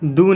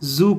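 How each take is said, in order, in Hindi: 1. अक्षर की शुरुआत d ध्वनि से होती है। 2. अक्षर की शुरुआत j ध्वनि से होती है। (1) "दू नहीं" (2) "उसे जू कहेंगे"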